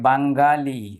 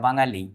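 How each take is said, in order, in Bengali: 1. ng-এর পরে একটি কঠোর g ধ্বনি থাকে। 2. ng-এর পরে কোনো কঠোর g নেই। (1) "এটাকে আবার অনেকে বলে থাকে বাঙ্গালি, দেখুন এটা বাঙ্গালি না" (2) "এটা বাঙালি"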